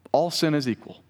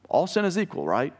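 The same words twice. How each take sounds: First: Said in the usual way. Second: "All sin is equal, right?" lifted higher, mock-quoting; mock cliché. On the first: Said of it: "Maybe you've heard it said". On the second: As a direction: parrot the saying you've heard, a bit teasing. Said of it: "you may have heard that before".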